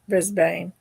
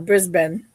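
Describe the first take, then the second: First: Brisbane is said in a non-Australian pronunciation. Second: Brisbane is said in the local Australian pronunciation. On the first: "We flew into Brisbane" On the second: "is how they pronounce it"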